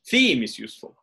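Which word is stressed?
theme. The main stress falls on the first word. It contrasts theme with new. "I'm saying theme is useful instead of new"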